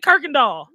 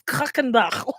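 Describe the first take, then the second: First: The name is said with local English sounds. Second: The name is said with German-like sounds. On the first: "we say Kirkendall" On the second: "It's pronounced Kuckendach. Like it's German"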